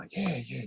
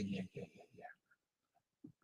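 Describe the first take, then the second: First: Said in the usual way. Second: Whisper. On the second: Real, not acted. Playful repeated yeah, then whispered.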